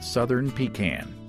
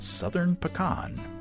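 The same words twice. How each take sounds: First: Pecan is said like 'pee-can'. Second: Pecan is said like 'puh-kahn'. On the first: It names a chamber pot kept under the bed. The speaker calls it wrong. "not Southern Pecan. The pecan is what you have under the bed" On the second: It names the nut. The speaker calls it right. "does brew a beer called Southern Pecan"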